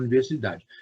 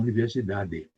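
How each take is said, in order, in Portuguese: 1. A vogal final é omitida ou mal se ouve. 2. A vogal final é clara e totalmente pronunciada. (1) "vocês não falam o final das palavras" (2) "vocês não falam universidade"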